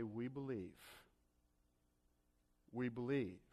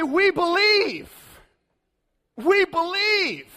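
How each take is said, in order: First: Much softer, lower, empty repeat of we believe; hollow quiet echo. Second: Higher, louder, slow proud declaration; mock the easy confidence of churchgoers; smug believers. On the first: Retold or imitated. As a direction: let the words fall hollow and hushed. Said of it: "are you going to continue to say". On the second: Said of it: "And we say".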